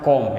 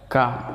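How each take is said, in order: First: The vowel sounds like a rounded o. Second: The vowel sounds like a short uh. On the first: The speaker calls it wrong. "Jangan juga kalian baca kom ya" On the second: The speaker calls it right.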